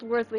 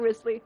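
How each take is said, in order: First: The name is said like 'Worsley'. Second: The name is said like 'Risley'. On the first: The speaker calls it right. "That motherfucker's name is pronounced Worsley" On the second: The speaker calls it wrong. "not Risley"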